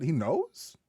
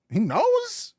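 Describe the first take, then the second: First: Said in the usual way. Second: High incredulous squeak; shocked, unable to believe it; disbelieving high question. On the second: Real, not acted.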